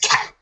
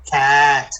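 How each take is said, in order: First: The word is said quickly as one blended unit. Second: The word is stretched out slowly, sound by sound. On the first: "Say it fast" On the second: "say it slow"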